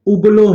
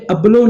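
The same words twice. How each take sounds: First: ابلو said with u at the start, ublo; correct pronunciation. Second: ابلو said with a plain a-sound at the start, ablo; wrong pronunciation. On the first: Teacher showing students the correct ابلو, careful pronunciation. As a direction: say ابلو the right way, first vowel u as in put. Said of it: "الف کے اوپر پیش ہے". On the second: Teacher showing students the wrong ابلو, mock-wrong pronunciation. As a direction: say ابلو the wrong way, first vowel a. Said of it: "یہ ابلو نہیں ہے". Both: Shown as a demonstration.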